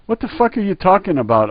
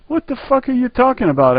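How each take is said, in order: First: Sharp, raised disbelief; stunned retort. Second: Same question pitched much higher; repeated louder. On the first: Customer snapping back at the clerk, raised disbelief. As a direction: fire it back at him, baffled. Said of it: "I answered". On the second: Customer repeating to the clerk, much higher and exasperated. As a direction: shoot it up high in exasperation. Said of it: "I say again". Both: Retold or imitated.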